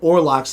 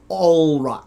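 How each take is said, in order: First: The first syllable sounds like 'or'. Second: The first syllable sounds like 'all'. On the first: This is how the speaker had always assumed it was said. The speaker calls it wrong. "I've always pronounced it Orlox" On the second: This is how the character says it in the show. The speaker calls it right. "when he introduced himself, it's he says uh"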